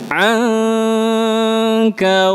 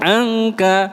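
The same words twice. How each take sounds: First: The nasal before the k is held long. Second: The nasal before the k is short. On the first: The speaker calls it right. "ikhfa, tahan dulu agak lama" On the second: The speaker calls it wrong. "Jangan angka"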